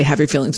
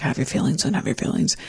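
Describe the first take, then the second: First: Said in the usual way. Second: Soft whisper of "Have your feelings"; hushed inner permission; whispered self-talk. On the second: Retold or imitated. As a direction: breathe the words to yourself, no voice. Inner voice allowing her feelings.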